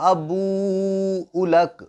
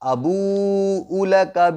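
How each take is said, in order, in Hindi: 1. यह वाक्यांश अंतिम स्वर गिराकर रुकता है। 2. यह वाक्यांश अंतिम स्वर उच्चारित करके आगे जारी रहता है। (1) "यहां पर अबू लक पर हमने सांस तोड़ी है" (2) "पीछे से मिलाकर के पढ़ना होगा"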